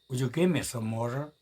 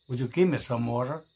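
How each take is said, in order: The two takes are said the same way.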